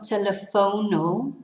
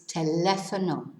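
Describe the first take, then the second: First: The stress falls away from the second syllable. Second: The stress falls on the second syllable. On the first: The speaker calls it wrong. "it's not telefono" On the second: The speaker calls it right. "it's teléfono"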